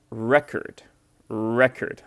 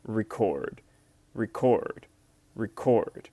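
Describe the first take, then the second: First: "record" with the weight on RE, /ˈrɛkərd/; stress on first syllable. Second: "record" with the weight on CORD, /rɪˈkɔrd/; stress on second syllable. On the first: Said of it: "stress on the first syllable". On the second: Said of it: "the stress is on the second syllable". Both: Shown as a demonstration.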